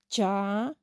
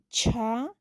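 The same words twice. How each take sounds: First: The consonant is plain, with no breath. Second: The consonant has a puff of breath. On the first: "Son simples o normales porque no tienen ninguna variación en la pronunciación" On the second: "Aspiradas porque está acompañado por la letra H"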